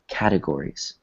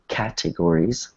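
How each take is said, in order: First: The T is a soft, weak sound. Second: The T is a hard, crisp sound like cat. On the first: The speaker calls it right. "we say it more like a, a soft T" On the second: The speaker calls it wrong. "instead of saying categories, like cat, like the animal"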